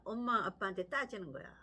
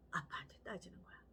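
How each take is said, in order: First: Said in the usual way. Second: Hushed whisper, much softer; whispered aside to the congregation. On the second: Real, not acted. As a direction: drop to a secretive whisper.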